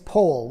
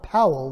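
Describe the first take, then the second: First: The vowel sounds like the one in whole. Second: The vowel sounds like the one in owl. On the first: The speaker calls it right. "like in whole" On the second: The speaker calls it wrong. "like in owl"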